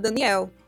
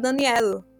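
First: It is said with a Brazilian Portuguese accent. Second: It is said with a Guinea-Bissau Portuguese accent.

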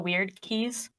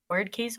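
First: The first word rhymes with 'beard'. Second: The first word rhymes with 'bird'. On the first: The speaker calls it right. "We decided it was weird" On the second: The speaker calls it wrong. "Other people pronounce it as word"

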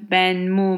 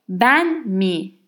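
First: The final syllable has a 'u' vowel. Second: The final syllable has an 'i' vowel. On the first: The speaker calls it wrong. "I don't say ben m, ben m, ben mu, whatever" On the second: The speaker calls it right. "I say ben mi"

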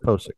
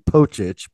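First: The name is said with s and k sounds. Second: The name is said with ch sounds. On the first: This is how the person himself says it. "So we're going to say it the way he says. He says Posick" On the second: This follows the name's Eastern European origin. "I believe it should be Pochich because that's certainly an Eastern European kind of a Polish Slavic sort of sounding name"

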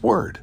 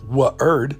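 First: The w sound leads straight into the vowel. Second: An extra uh vowel follows the w sound. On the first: The speaker calls it right. "it's word. And the W only makes the W" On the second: The speaker calls it wrong. "W isn't Wa, because there's no UH sound after the W"

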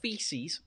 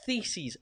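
First: The word begins with an f sound. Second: The word begins with a th sound. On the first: The speaker calls it wrong. "not feces" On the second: The speaker calls it right. "you've got to pronounce it right. It's theses"

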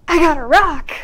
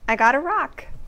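First: It sounds hugely excited, like getting a diamond. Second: It sounds moderately pleased, warm but restrained.

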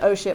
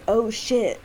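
First: It sounds mildly annoyed and exasperated. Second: It sounds tense and alarmed, genuinely frightened. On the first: His phone is about to die. "my phone's about to die?" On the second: Something bad is happening to him. "like, something's happening?"

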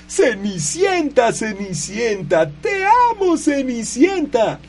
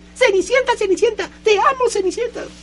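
First: It is said slowly in a normal voice. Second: It is said fast in a squeaky mouse voice.

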